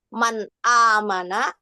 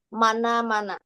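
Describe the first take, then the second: First: A glottal stop separates the two words. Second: The n links straight into the vowel.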